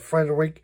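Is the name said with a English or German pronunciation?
English. The name is pronounced the English way. "In English, ... would be closer to Frederick"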